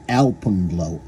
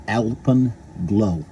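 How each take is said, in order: First: Said in the usual way. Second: Alpenglow stretched out very slowly; slow drawn out. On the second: Real, not acted. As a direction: draw out Alpenglow syllable by syllable. Drawn-out repeat of title.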